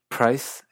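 It is said in a Canadian English accent. "en partes de Canadá"

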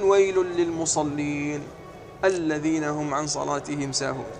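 There is a stop right after lil-musallin.

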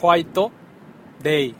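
It is pronounced with Japanese-style syllables. "Como tienen la costumbre aquí los japoneses para pronunciar el inglés"

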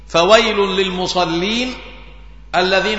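There is a pause after the second word. Each verse is marked off at its end. "هكذا قرأها عليه الصلاة والسلام ووقف على رأس كل ايه آية"

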